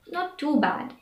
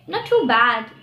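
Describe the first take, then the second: First: It is said in a flat, downbeat tone. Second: It is said in a bright, upbeat tone. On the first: Things are bad but could be worse. "it means that things are pretty bad, but it could be worse" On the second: Things are going better than expected. "you are just happy and shocked that they are well"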